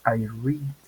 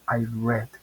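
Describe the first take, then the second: First: The word does not sound like the color red. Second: The word sounds like the color red. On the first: It happens now. "en presente diríamos I read" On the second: It happened before. "En pasado, aunque se escribe igual, diría I read, como el color prácticamente"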